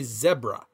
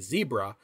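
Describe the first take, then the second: First: It is said with a British pronunciation. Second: It is said with an American pronunciation.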